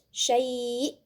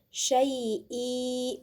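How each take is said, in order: First: The word stops on the glottal consonant. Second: The word ends with a short i vowel. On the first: The speaker calls it right. "tapi ini kita baca syai' karena tidak berlaku mat iwad" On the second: The speaker calls it wrong. "bukan kemudian ibu-ibu baca syai'i, bukan"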